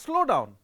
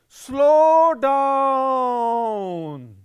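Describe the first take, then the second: First: It is said at a normal pace. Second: It is drawled with long, slow vowels.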